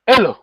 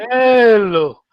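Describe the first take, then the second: First: "Elo" said short and high; short vowel. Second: "Elo" with a long drawn-out E, high then falling; long vowel. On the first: Teacher showing why the vowel matters, short "Elo". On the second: Teacher answering a call to come, long-vowel "Elo". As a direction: stretch the first vowel of "Elo". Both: Shown as a demonstration.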